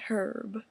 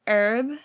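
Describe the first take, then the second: First: The word starts with an h sound. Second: The word starts without an h sound. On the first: "Some people say herb" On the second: "That H is silent"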